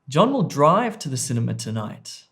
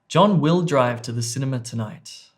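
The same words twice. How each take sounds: First: The stress falls on the word 'drive'. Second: The stress falls on the word 'will'. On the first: "I've put word stress or emphasis on C, drive" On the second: "the emphasis or the word stress there was on B"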